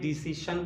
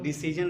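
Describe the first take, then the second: First: The last syllable is said with a 'sh' sound. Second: The last syllable is said with a 'zh' sound. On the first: The speaker calls it right. "डिसीशन बोलेंगे" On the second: The speaker calls it wrong. "डिसीजन नहीं"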